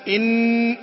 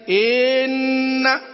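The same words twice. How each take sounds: First: The vowel before the nasal is kept short. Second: The vowel before the nasal is lengthened. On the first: The speaker calls it right. "لا إن" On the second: The speaker calls it wrong. "توليد حرف مد قبل الميم المدغمة أو المخفاة"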